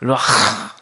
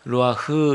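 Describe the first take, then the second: First: The final h is a strong, harsh throat sound. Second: The final h is a soft, light breath. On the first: The speaker calls it right. "히브리어는 루아흐 이렇게 아주 강하고 세게 발음하는데" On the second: The speaker calls it wrong. "그냥 우리는 흐 해가지고 히읗자 루아흐 이렇게 하는데 그게 아니라"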